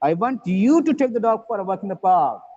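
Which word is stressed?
you. The stress falls on the word you. The listener, not somebody else, should do it. "you, not somebody else"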